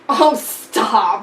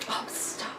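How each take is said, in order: First: It is said in a big, exaggerated way. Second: It is said in a mild, plain way.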